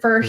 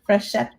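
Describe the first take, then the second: First: The first syllable sounds like 'fur'. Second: The first syllable sounds like 'fresh'. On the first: This is how the family name was often mispronounced. The speaker calls it wrong. "always said it like it was F E R" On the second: This is the correct pronunciation of the name. The speaker calls it right. "it's fresh"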